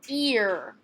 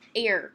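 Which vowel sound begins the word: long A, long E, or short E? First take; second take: long E; long A. First: The word begins with a long E vowel. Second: The word begins with a long A vowel. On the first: The speaker calls it right. "it's making the long E sound" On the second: The speaker calls it wrong. "Let's start with A"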